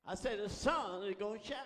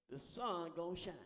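First: Loud, insistent preaching repeat; emphatic repeat. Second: Said in the usual way. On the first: Real, not acted. Preacher promising congregation the sun will shine, loud and emphatic. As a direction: drive the promise home with force.

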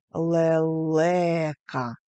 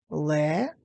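First: Лелека joined up, long middle ле; slow, exaggerated stress on the middle of Лелека; stress on second syllable. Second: Three separate beats with pauses; syllable by syllable. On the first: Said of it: "вимовте так, щоб почути наголошений склад". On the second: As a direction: break Ле-ле-ка apart, syllable after syllable. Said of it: "лелека поділіть на склади". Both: Shown as a demonstration.

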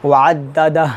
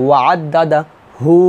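First: ওয়াদ্দাদা closed on a vowelless "h"; stopped ending. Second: ওয়াদ্দাদা হু with "hu" held long; stretched ending. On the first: Teacher showing the stop at waqf, vowelless ending. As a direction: cut the final hu of ওয়াদ্দাদা to bare h. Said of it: "জজমের মতো উচ্চারণ করতে হবে". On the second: Teacher showing reading without a stop, lengthened hu. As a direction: draw out the final হু, no stop. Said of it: "ওয়াকফ না ধরলে এখানে অবশ্যই এক লিফ টান". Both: Shown as a demonstration.

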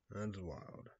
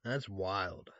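First: Much softer, said to himself; murmured That's wild; quiet echo. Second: Said in the usual way. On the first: Real, not acted. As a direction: let it fade under the breath. Repeated reaction, softer echo.

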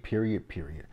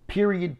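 First: Said in the usual way. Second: First "Period," shot up high and louder, falling hard; emphatic period. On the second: Real, not acted. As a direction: slam the first "Period," high then drop it. Annoyed at Keely, emphatic repeat.

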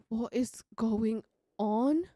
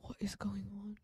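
First: Slow, drawn-out rising question; stunned slow question; slow disbelieving question. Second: Soft unvoiced whisper; hushed disbelief. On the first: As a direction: ask it aloud, stretched in disbelief. Same words repeated aloud. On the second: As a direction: whisper it in shock. Shocked whisper, then repeated. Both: Real, not acted.

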